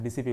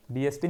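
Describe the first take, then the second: First: डीसीपी said as letters D-C-P, the right name; correct way. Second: डीएसपी said as letters D-S-P, the wrong name. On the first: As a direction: say डीसीपी clearly, spelling out D, C, P. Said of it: "डीसीपी बोलना है". (डीसीपी, सही उच्चारण, डी-सी-पी) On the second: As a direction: say डीएसपी, spelling out D, S, P. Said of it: "डीएसपी नहीं बोलना है". (डीएसपी, गलत उच्चारण, डी-एस-पी) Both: Shown as a demonstration.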